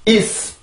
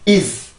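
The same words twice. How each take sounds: No difference in how they are said.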